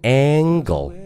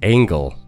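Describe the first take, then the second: First: The first vowel is a plain open vowel. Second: The first vowel is altered before the nasal. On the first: The speaker calls it wrong. "角度这个词不读作angle" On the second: The speaker calls it right. "而是angle"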